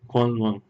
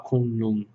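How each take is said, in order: First: The name sounds like 'kwan-lwan'. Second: The name sounds like 'kun-lun'. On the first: This is how it is said in Taiwan. "a pronúncia mais próxima, somente da província de Taiwan" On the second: This is how it is said in some parts of China. "em alguns lugares da China se fala Kunlun"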